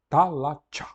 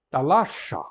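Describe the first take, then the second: First: It is said with the Attic dialect pronunciation. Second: It is said with the Ionian dialect pronunciation. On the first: It is the more refined, prestige form. "O ático, o carioca, o lisboeta, pronunciava talacha" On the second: It is the less refined, provincial form. "um jônio, vamos dizer, o cara lá do interior, pronunciava talaxa"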